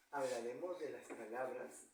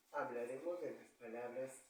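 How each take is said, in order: Both takes have the same delivery.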